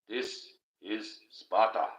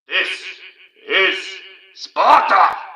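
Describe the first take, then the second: First: It is said calmly in a normal voice. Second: It is shouted dramatically, movie style.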